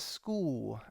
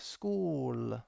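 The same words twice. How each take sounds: First: The word ends in a W-like sound. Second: The word ends in a clear L sound. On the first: The speaker calls it wrong. "she kind of says school, and it sounds like it ends in a W" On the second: The speaker calls it right. "and then put them together"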